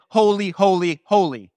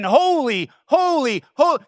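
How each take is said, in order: First: Said in the usual way. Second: Holy, holy, holy climbing higher each time and declared; giant exclamation. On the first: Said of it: "our English Bible translates it". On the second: Shown as a demonstration. Angel shouting praise in God's presence, climbing exclamation. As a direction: build each Holy into an awestruck cry. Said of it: "one giant exclamation at his top of his lungs".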